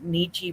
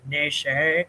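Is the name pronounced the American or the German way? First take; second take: American; German. First: The name is pronounced the American way. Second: The name is pronounced the German way. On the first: This is the form used among American peers. "I grew up with Nietzsche" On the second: This is the form used in Germany. "I get that that's in Germany, that's how it's pronounced"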